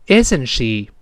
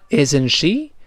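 First: The voice falls at the end. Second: The voice rises at the end. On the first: The speaker is already sure and expects no answer. The speaker calls it right. "注意降调。那我完整的再听一遍" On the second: The speaker is asking the listener's opinion. The speaker calls it wrong. "如果你读成isn't she，那就要征求对方意见了"

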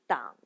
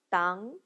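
First: The pitch dips low, then rises. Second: The pitch rises from mid to high.

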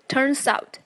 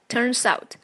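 First: The two words are linked into one unit. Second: The two words are linked into one unit.

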